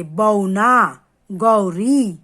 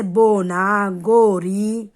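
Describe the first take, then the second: First: 'बौना' and 'गौरी' drawn out slowly with the mouth opened wide for औ; slow teacher model of wide 'बौना' and 'गौरी'. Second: 'बोना' and 'गोरी' said slowly with a short rounded ओ; slow teacher model of 'बोना' and 'गोरी'. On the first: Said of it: "मुंह खोल के बोलेंगे". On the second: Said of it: "दोनों मात्राओं के उच्चारण में अंतर होता है". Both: Shown as a demonstration.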